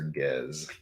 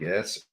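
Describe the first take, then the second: First: The word ends with a z sound. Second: The word ends with an s sound.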